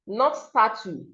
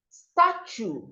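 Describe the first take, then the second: First: The middle T is pronounced as t. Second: The middle T is pronounced as ch. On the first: The speaker calls it wrong. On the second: The speaker calls it right. "the letter T here makes the sound ch"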